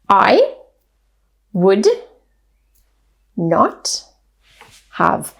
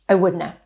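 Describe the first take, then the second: First: Each word is said fully and separately. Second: The words blur together into one reduced sound.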